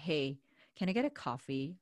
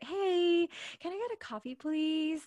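First: It is said in a plain, lower pitch. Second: It is said in a raised, polite pitch.

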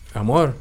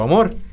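First: It is said at a normal, soft volume. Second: It is said loudly, calling out.

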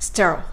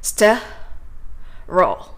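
First: It is said smoothly at natural speed. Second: It is said slowly in two separate parts. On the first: "自然な速度で発音しましょう" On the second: "最初にste を発音して、その後ろに今練習したR とL の音移動roll をくっつけていきますね"

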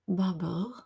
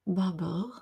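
First: The name is pronounced with a French accent. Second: The same.

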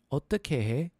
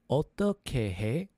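First: It is said at a faster pace. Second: It is said at a slower pace.

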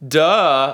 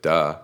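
First: It is said in an exaggerated, comical way. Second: It is said casually, tossed away.

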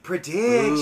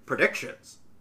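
First: It is said in an eerie, mystical fortune-teller voice. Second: It is said in a flat, mechanical robot voice. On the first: "Or maybe it would sound all psychically like" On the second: "Like a robot saying"

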